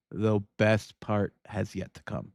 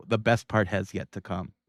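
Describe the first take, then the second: First: Slow, drawn-out teaser; slower teasing repeat. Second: Said in the usual way. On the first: Shown as a demonstration. Host teasing Megan about what comes next, slow and drawn out. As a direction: stretch it out to build suspense.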